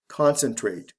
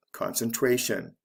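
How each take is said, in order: First: "Concentrate" stressed CON-cen-trate; stress on first syllable. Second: "concentration" stressed concen-TRA-tion; stress before the ending. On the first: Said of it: "is actually the first syllable of these words". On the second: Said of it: "the stress comes right before the ending". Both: Shown as a demonstration.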